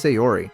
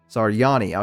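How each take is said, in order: First: The name is said like Sayori, ending in 'ri'. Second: The name is said like Saryani, ending in 'ni'. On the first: The speaker calls it wrong. "I don't know why I'm saying Sayori" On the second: The speaker calls it right. "Okay, I got it"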